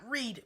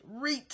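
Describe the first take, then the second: First: Said in the usual way. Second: "read" higher and rising, with a crisp final t, like "reeet"; "read" pitched up and ending on a hard, sharp t; emphatic slang "read". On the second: Shown as a demonstration. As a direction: punch "read" as a swooping "reeet". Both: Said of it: "Not read, read".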